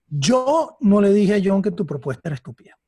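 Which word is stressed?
yo. The emphasis falls on the word yo. Someone else said it. "que no fui yo, que lo hizo otra persona"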